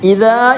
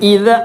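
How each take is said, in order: First: The final vowel is held long. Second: The final vowel is kept short. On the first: The speaker calls it wrong. "ഇതാ എന്ന് വായിക്കരുത്" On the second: The speaker calls it right.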